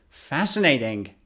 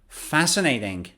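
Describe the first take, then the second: The two takes are said the same way.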